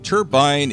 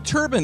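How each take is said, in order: First: It uses the British pronunciation. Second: It uses the older American pronunciation. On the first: This form is more common in Britain. "Turbine is more of a British pronunciation" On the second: This is the original form of the word. "turbine is actually the original pronunciation for the word"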